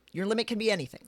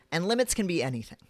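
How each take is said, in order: First: "be" pitched higher and leaned on; stress on be. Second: Said in the usual way. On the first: Shown as a demonstration. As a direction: lift the word "be" to insist.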